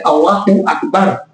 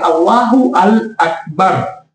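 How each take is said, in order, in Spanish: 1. Las vocales se fusionan y el artículo deja de sonar por separado. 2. El artículo se pronuncia como sílaba aparte.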